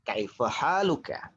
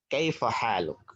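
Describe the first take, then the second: First: The last word ends with a full final vowel. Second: The last word ends without its final vowel. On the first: This is how it is written. "Kalau tulisannya adalah kaifa haluka" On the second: This is how it is spoken. "kalau dalam pengucapan itu menggunakan dengan ucapan kaifa haluk"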